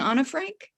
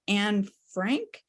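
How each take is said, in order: First: The first name is said as two syllables. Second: The first name is said as one syllable. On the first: This is how those close to her said it. "the proper way to say it is Anna, like Anna, Anna and Sana and Hannah" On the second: This is the usual way people say it. "I think we usually refer to Anne Frank"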